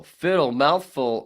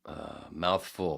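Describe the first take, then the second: First: Loud call-out. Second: Said in the usual way. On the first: Shown as a demonstration. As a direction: shout the name, much louder and higher.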